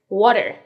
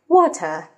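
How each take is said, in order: First: It is said with an American accent. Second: It is said with a British accent.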